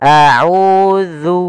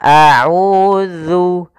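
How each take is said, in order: No difference in how they are said.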